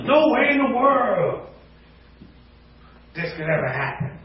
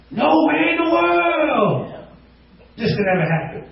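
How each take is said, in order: First: Higher, milder repeat of the overdone protest; quicker, lighter take of the excuse; exaggerated refusal. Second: Exaggerated refusal. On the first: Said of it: "we over-exaggerate". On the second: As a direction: ham up the impossible excuse. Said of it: "we do this by saying things like".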